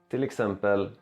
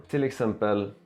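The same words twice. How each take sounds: The two takes are said the same way.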